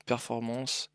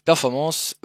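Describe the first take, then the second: First: Slow, searching "performance" as if unsure; hesitant drawn-out word. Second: "performance" said louder and firmly, with a rise at the end; firm correction. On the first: Streamer hunting the menu for viewers, slow hesitant "performance". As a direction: drag out "performance" while looking for the setting. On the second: Streamer correcting his slip for viewers, firm clear "performance". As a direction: restate "performance" clearly, as the fix. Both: Real, not acted.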